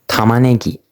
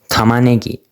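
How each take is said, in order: The two takes are said the same way.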